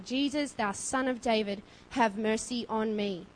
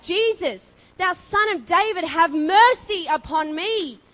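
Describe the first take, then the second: First: Said in the usual way. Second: Loud, high, drawn-out desperate shout; yelled cry for mercy. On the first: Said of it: "He didn't just speak in a normal voice". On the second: Acted. Blind beggar calling to Jesus through a crowd, yelling. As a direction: cry out over a massive crowd. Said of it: "He yelled and cried out".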